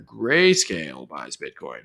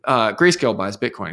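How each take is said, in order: First: "Grayscale buys Bitcoin" said lower and slower, each word weighted; slow emphatic retake. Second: Said in the usual way. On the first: Shown as a demonstration. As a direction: lay down "Grayscale buys Bitcoin" slowly and firmly. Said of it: "Let me put that in there". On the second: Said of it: "Let me put that in".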